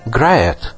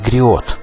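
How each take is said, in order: First: The word is said without French pronunciation. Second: The word is said with French pronunciation.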